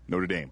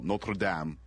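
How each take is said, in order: First: Notre Dame is said with an American pronunciation. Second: Notre Dame is said with a French pronunciation.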